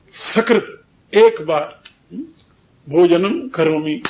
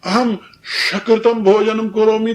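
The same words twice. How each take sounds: First: Slow Sanskrit line, "सकृत" with a dental s; correct dental s. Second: Slow Sanskrit line, "सकृतम" wrongly said sha-kritam; wrong palatal sh. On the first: Shown as a demonstration. Diner saying he eats once, "सकृत" with dental s. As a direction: say "सकृत" as sa-krit, slowly and clearly. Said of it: "लेकिन वहां सकृत". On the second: Retold or imitated. Diner misspeaking about his meal, "सकृतम" wrongly with sh. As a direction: replace the s of "सकृतम" with a whistling sh. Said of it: "सकृत की जगह यदि वो कहे".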